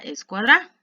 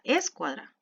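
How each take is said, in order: First: The stress is on the last syllable. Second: The stress is on the first syllable. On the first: "Si se la colocara al final" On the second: "el mayor volumen en es"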